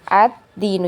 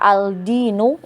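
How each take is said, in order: First: The L merges into a doubled D sound. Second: The L is pronounced clearly before the D. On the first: The speaker calls it right. "Jadi langsung masuk ke huruf dal ya" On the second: The speaker calls it wrong. "Kalau kita baca al-dinu itu uh, gak enak ya"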